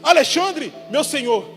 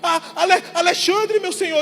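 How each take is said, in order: First: It is said calmly, without hesitation. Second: It is said fearfully, stammering at the start.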